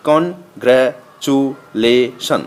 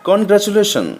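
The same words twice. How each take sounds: First: congratulation slowly, in five separate beats; broken into syllables. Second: Said in the usual way. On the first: Shown as a demonstration. Teacher counting five syllables, congratulation broken piece by piece. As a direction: pause after every syllable of congratulation. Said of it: "ভেঙে ভেঙে উচ্চারণ করতে হয়". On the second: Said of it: "একটানে উচ্চারণ".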